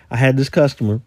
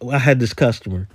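No difference in how they are said.

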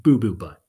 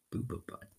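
First: Said in the usual way. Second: Boo Boo Butt barely voiced and much softer; mortified under-the-breath repeat; embarrassed mutter. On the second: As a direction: mumble Boo Boo Butt as if ashamed to say it. Mortified repeat of silly name.

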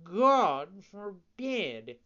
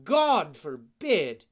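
First: Very slow, higher drawn-out cat echo. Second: Loud, slow, indignant fox; mock-offended fox. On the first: Acted. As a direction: stretch it out like a lazy cat. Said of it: "repeated the cat". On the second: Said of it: "exclaimed the fox, as if offended".

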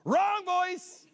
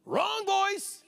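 First: High, loud, sing-song correction; pastor's correction. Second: Pastor's correction. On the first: Pastor showing how he really says it, high loud sing-song. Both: Retold or imitated. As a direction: sing it out as a flat verdict. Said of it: "That's really how I do it too".

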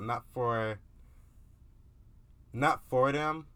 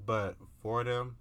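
First: "not" punched higher and louder; stress on not. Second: "but for them" slow and drawn out; slow reassuring "but for them"; stress on for them. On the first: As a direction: hit "not for them" hard. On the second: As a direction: ease into "for them" slowly. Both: Shown as a demonstration. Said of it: "if that makes sense".

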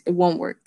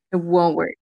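First: Said in the usual way. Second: Laughing repeat of "It won't work". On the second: Real, not acted.

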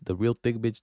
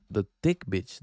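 First: "real" leaned on to correct himself; "real" stressed in "the real thick bitch". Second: Said in the usual way. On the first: Shown as a demonstration. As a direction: hit "real" a little harder than the rest.

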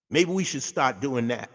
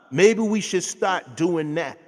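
First: Said in the usual way. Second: "Maybe we should start doing that" धीमे, ज़ोर देकर दोहराना; slower, louder repeat. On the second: Shown as a demonstration. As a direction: say it again slowly and louder, pressing the point.

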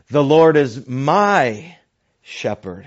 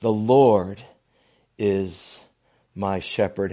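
First: "The Lord is my" drawn out slowly with a rise on "my"; stress on my. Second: Said in the usual way. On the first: Shown as a demonstration. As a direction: lean hard on "my", as in my very own shepherd. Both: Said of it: "He puts his emphasis on his own personal shepherd".

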